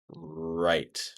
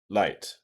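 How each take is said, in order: First: The word begins with an R sound. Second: The word begins with an L sound. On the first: The speaker calls it right. "in reality, it's like this" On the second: The speaker calls it wrong. "you probably said light"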